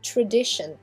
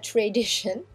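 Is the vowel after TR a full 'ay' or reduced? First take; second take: reduced; full 'ay'. First: The A after TR is reduced, nearly silent. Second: The A after TR is a full 'ay' sound. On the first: The speaker calls it right. "C'est tradition. Ici, le A est muet" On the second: The speaker calls it wrong. "c'est pas tradition. Hein, c'est pas un leçon A de l'alphabet"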